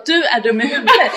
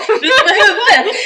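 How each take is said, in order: First: Mock scolding through a chuckle; half-laughing retold insult. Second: Much higher and louder, cracking up; mock outrage dissolving into laughs; laughing yell. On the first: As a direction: tease him while laughing. Scolding friend in retold scene. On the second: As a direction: shriek it through laughter. Repeating scolding, escalating.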